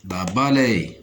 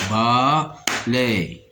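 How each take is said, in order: First: Said in the usual way. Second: "Balaye" as two drawn-out beats, ba, then laye; split into syllables. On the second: Shown as a demonstration. Teacher cutting a word for learners, "Balaye" syllable by syllable. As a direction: break "Balaye" with a clear pause after ba. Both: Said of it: "On va découper les mots en syllabes".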